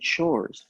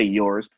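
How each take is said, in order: First: The word starts with a ch sound. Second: The word starts with a plain y sound. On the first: It sounds more casual and street. The speaker calls it right. "say chores" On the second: It sounds too correct. The speaker calls it wrong. "Don't say yours"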